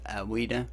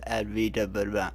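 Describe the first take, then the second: First: The consonant after 'Ad' is a W sound. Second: The consonant after 'Ad' is a V sound. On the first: The speaker calls it right. "the V is pronounced as a W" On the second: The speaker calls it wrong. "I thought it was Advaita Vedanta"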